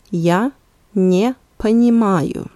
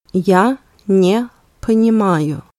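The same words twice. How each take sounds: First: Я, pause, then не понимаю; word by word. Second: Said in the usual way. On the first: Shown as a demonstration. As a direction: say "Я", stop, then "не понимаю" in one go. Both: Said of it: "let's repeat both sentences one more time".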